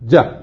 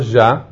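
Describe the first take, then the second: First: It begins with a hard j sound. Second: It begins with a soft zh sound. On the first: The speaker calls it right. "אלא ג'ה" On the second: The speaker calls it wrong. "לא ז'ה"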